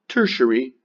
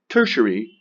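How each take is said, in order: The two takes are said the same way.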